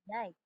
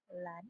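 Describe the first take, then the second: First: The word begins with a Y sound. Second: The word begins with an L sound. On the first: "with the glide replacing the liquid" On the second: "like is pronounced"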